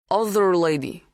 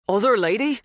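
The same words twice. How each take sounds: First: Put-on higher Polish-accented statement; strong foreign accent. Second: Put-on high, rising, unaccented echo; startled question. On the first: Polish farmhand recalling someone else, strongly accented. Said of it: "His accent was strong". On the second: Dan seizing on the farmhand's words, startled. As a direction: echo it back as an urgent question. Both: A narrator's reading.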